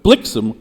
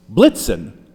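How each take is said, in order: First: Blixen said with a clear ks, rhyming with vixen; blixen, blix-en, the x crisp; the rhyming Dutch form blixen. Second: Blitzen said slowly with a sharp ts, not ks; Blitzen, blits-en, the ts stressed; the German form Blitzen that breaks the rhyme. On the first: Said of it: "blixen rhymes with vixen". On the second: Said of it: "Blitzen does not". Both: Shown as a demonstration.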